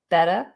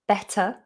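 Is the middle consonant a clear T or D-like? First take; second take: D-like; clear T. First: The middle T sounds more like a D. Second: The middle T is pronounced clearly. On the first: "they might drop that T and say better, better. It goes more like a D" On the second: "Always making sure that you do pronounce that middle T"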